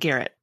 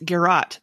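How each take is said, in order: First: It sounds like the name Garrett. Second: It does not sound like the name Garrett. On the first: The speaker calls it wrong. "not Garrett ... Not Garrett the person" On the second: The speaker calls it right. "It's Garrot"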